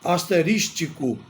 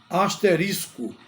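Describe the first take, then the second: First: The word ends with an extra 'tico' syllable. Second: The word ends with a plain 'isco' ending. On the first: The speaker calls it wrong. "Muita gente pronuncia a palavra asterístico" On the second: The speaker calls it right. "A pronúncia adequada é asterisco"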